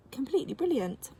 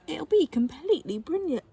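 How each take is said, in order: First: "completely brilliant" leiser und tiefer wiederholt, Betonung auf "brilliant"; softer echo. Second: "completely brilliant" gesprochen mit hoher, betonter Stimme auf "be"; emphatic. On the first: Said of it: "repeated more quietly". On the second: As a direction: lift "completely" high and bright. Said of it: "repeats phrase with emphasis". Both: A narrator's reading.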